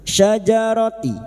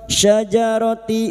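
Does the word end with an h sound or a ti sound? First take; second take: ti sound; ti sound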